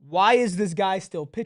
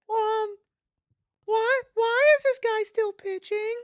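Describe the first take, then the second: First: It is said in his normal adult voice. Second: It is said in a put-on child's voice.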